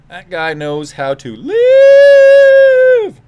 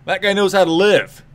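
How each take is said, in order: First: High, slow, booming drawn-out call; announcer hype. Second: Said in the usual way. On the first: Acted. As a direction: stretch it like a ring announcer. Drawn-out hype repeat of line.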